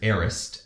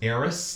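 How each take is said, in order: First: It sounds like the words 'air rest'. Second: It sounds like the word 'heiress'. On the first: The speaker calls it right. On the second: The speaker calls it wrong.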